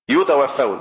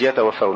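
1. تبدأ الكلمة بالصوت u، وهي صيغة المبني للمجهول. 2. تبدأ الكلمة بالصوت a، وهي صيغة المعلوم. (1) "يتوفون مش يتوفون" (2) "مش يتوفون"

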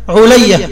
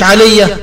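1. الحركة الأولى هي u، والثانية a. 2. الحركة الأولى هي a، وليست u. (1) "العين عليها ضمة واللام عليها فتحة" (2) "مش علي"

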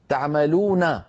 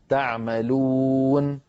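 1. النون الأخيرة عليها فتحة قصيرة. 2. النون الأخيرة تنتهي بدون حركة. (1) "النون مفتوحة" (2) "لكن إن وقفنا نقول"

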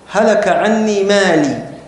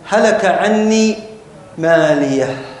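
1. تنتهي العبارة بوقفة مفاجئة على الحركة. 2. تنتهي العبارة بهاء مع نفَس يخرج معه الهواء. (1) "لاحظتم الوقفة المفاجئة هذه" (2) "خلاص أخرج بقية الهواء مع هذه الهاء"

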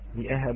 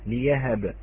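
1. تأتي همزة بعد الحرف الأول. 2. يأتي صوت الياء بعد الحرف الأول. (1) "كلمة لأهب" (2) "بإبدالها إلى ياء"

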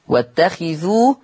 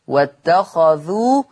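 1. الخاء تليها حركة 'i'. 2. الخاء تليها حركة 'a'. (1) "قرأ حفص عن عاصم بكسر الخاء" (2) "بفتح الخاء"

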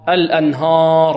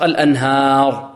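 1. الهاء والفتحة بعدها مفخّمتان. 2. الفتحة بعد الهاء خفيفة ومفتوحة. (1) "البعض يفخم الهاء ... هذا خطأ" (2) "الصحيح ماذا؟ فتح خالص"

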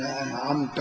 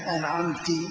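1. تنتهي الكلمة بحركة a. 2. تنتهي الكلمة بحركة i. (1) "الخطاب للرب سبحانه وتعالى" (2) "أو كسر أنعمت، خطاب للمؤنث"

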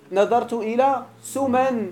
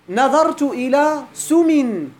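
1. تنتهي الكلمة الأخيرة بصوت 'an'. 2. تنتهي الكلمة الأخيرة بصوت 'in'. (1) "اللغة التي بالألف المقصور" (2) "بالكسرة"

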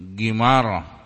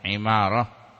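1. Nama itu dimulai dengan konsonan yang mirip g. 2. Nama itu dimulai dengan ain dan sebuah vokal. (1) "Kalau ada titik, gimarah. Itu salah bacanya" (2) "bacaan Imarah"

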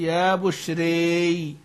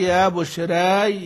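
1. الحركة الأخيرة تميل بقوة نحو 'ee'. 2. الحركة الأخيرة تميل قليلا نحو 'ee'. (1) "الإمالة" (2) "التقليل"

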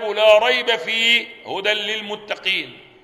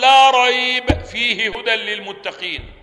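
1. فيه وقفة بعد 'fihi'. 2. فيه وقفة بعد 'la rayb'. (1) "أو تقول" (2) "لو وقفت تقول"

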